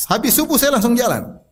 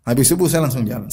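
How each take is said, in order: First: Said in the usual way. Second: Same line again, much lower; a lower, calmer echo of the first take; lower repeat. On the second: Shown as a demonstration. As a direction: drop the pitch and settle it.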